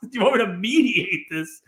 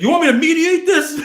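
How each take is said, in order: First: Disbelieving, laughing echo; a laughing, stunned echo; incredulous. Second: High, loud, laughing mock offer; a laughing, loud send-up of the mediator. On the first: Retold or imitated. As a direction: repeat it back in disbelief. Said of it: "And you're like". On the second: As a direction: ham up the dealer's offer to mediate. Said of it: "And he's like".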